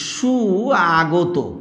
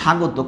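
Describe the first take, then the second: First: The two parts are said separately, unjoined. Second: The parts are merged into one relaxed word. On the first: The speaker calls it wrong. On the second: The speaker calls it right.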